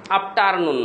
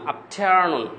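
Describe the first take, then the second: First: আফটারনুন with a hard, unaspirated "t", as "aap-taar-noon"; wrong pronunciation. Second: আফটারনুন with a breath-released "th", as "aap-thear-noon"; corrected pronunciation. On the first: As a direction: say আফটারনুন with a hard Bengali T and open "aar". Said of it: "আফটারনুন না". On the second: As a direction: say আফটারনুন with aspirated T gliding into "ear". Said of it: "এভাবে বলার চেষ্টা করেন". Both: Shown as a demonstration.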